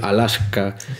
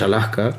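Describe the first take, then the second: First: The s before the k is fully pronounced. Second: The s before the k is aspirated. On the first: "me esforcé por decir Alaska" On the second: "lo que me sale más natural es Alaska"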